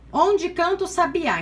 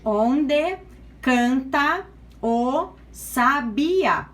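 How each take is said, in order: First: Said in the usual way. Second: "Onde canta o Sabia" very slowly, syllable by syllable, with pauses; teacher dividing "Onde canta o Sabia" slowly for scansion; split into syllables. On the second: Shown as a demonstration. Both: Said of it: "como separa onde?".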